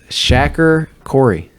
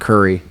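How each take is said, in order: First: The name is said like Corey. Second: The name is said like Curry. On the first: The speaker calls it right. "That's right?" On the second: The speaker calls it wrong. "I used to pronounce your name wrong. I pronounced it Curry"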